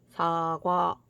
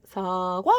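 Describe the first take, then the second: First: The word is said on a low pitch. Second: The pitch starts low and then rises. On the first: "완전 저음으로 하는 거야" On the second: "낮았다가 높아지는 소리야"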